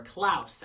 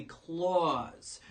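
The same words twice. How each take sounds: First: Klaus said to rhyme with "house"; "ow" vowel and crisp final s in Klaus; corrected pronunciation of Klaus. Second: Klaus said like "claws"; drawn-out "claws" vowel in Klaus; mispronounced Klaus. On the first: Reviewer correcting the movie title, Klaus pronounced like "house". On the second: Reviewer naming the new Netflix animated movie, Klaus mispronounced as "claws". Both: Shown as a demonstration. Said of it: "actually, that's how it's pronounced".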